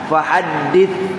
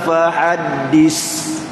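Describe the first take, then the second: First: The final consonant is a soft 'th' sound. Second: The final consonant is a hissing 's' sound. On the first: The speaker calls it right. "ha dal sa mati bawah dit" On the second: The speaker calls it wrong. "itu jadi rusin, ya safir"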